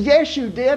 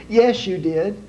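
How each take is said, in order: First: Much higher, scolding contradiction; exasperated wife contradicting him in front of the police; shrill nagging wife. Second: Higher, scolding contradiction; wife correcting her husband in front of the officer; nagging wife. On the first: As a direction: snap back even more exasperated. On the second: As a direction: snap back at him like a fed-up wife. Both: Acted.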